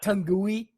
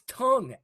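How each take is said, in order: First: The ending is sounded as an extra syllable. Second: The ending is silent, making one syllable. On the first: The speaker calls it wrong. "It's not Tungui" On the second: The speaker calls it right. "it's tongue"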